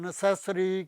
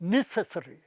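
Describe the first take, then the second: First: The stress is on the second syllable. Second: The stress is on the first syllable. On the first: The speaker calls it wrong. "Second syllable ਸੈਸ ਜਿਹੜਾ ਹੈ ਉਸ ਤੇ primary stress ਦਿੰਦੇ ਸੀ" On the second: The speaker calls it right. "Primary stress ਹੈ ਉਹ ਸ਼ੁਰੂ ਦਾ syllable ਜਿਹੜਾ ਹੈ ਨੈ"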